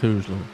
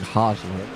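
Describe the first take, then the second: First: The name is said without a t sound. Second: The name is said with a t sound. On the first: The speaker calls it wrong. "Still like Hosler" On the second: The speaker calls it right. "it is Lane Hostler"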